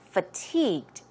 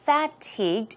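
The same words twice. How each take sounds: First: The first syllable is a weak, short 'fuh'. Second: The first syllable has a full, clear vowel. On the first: The speaker calls it right. "it's F U H, F, fatigued" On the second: The speaker calls it wrong. "It's not fatigued"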